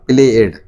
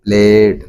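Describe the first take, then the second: First: "played" split into two syllables, play-ed; mispronounced played. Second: "played" as one long syllable ending in d; correct played. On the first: Teacher showing learners the mistake, played wrongly split in two. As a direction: say "played" with a separate -ed vowel. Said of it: "not played". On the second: Teacher correcting the -ed ending, played as one syllable. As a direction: say "played" joined up, plain d ending. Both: Shown as a demonstration.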